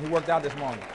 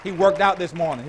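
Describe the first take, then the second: First: Said in the usual way. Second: "worked" hit hard and loud the first time; punched, louder take. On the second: Real, not acted. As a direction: call it out with force on "worked".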